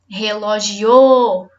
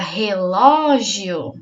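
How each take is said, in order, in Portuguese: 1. A tônica está na quarta sílaba. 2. A tônica está na segunda sílaba. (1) "Se for o o" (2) "Se for o lo, fica"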